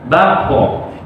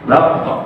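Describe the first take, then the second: First: The final q turns into a full added vowel. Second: The final q ends in a light neutral bounce. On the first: The speaker calls it wrong. "jangan terlalu berlebihan, kita mengarah sampai ke fathah" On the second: The speaker calls it right. "punya efek mantul"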